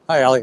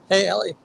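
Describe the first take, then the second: First: It is said in a strong voice. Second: It is said in a weak voice.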